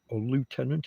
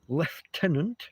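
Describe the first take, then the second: First: It is said with an American accent. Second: It is said with a British accent.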